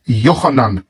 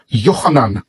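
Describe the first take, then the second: No difference in how they are said.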